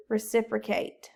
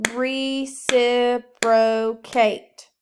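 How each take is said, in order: First: Said in the usual way. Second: Reciprocate split into very slow, loud syllables; clapped syllables. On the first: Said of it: "What was the word?". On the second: Shown as a demonstration. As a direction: clap each beat of Re-ci-pro-cate. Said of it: "Clap it".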